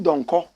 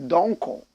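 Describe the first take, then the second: First: It is said with a native Ghanaian pronunciation. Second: It is said with an anglicized English pronunciation. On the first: "That's the correct way to pronounce it" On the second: "because of the anglicization of the name, we say Donko"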